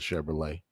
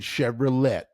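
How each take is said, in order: First: The word ends without any T sound. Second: The word ends with a pronounced T sound. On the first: The speaker calls it right. "you don't say the T at the end" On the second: The speaker calls it wrong. "I've been saying Chevrolet for months"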